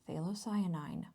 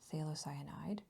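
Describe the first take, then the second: First: The word ends with an 'ine' sound. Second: The word ends with an 'ide' sound. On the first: The speaker calls it right. "it is phthalocyanine" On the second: The speaker calls it wrong. "it is not phthalocyanide"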